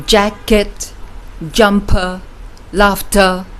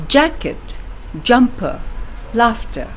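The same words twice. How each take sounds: First: "jacket, jumper, laughter" with both syllables equally heavy; wrong-way demo, each syllable of "jacket, jumper, laughter" punched alike; even stress, no beat. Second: JACK-et, JUM-per, LAUGH-ter, strong then light; rhythmic beat on "jacket, jumper, laughter", second syllables light; stress on first syllable. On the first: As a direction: give JACK-KET, JUM-PER, LAUGH-TER two equal beats. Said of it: "So instead of saying". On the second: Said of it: "You see the beat?". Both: Shown as a demonstration.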